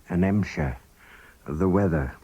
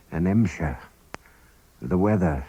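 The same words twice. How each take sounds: The two takes are said the same way.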